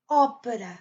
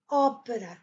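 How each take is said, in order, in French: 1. L'accent est sur la première syllabe. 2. L'accent est sur la première syllabe.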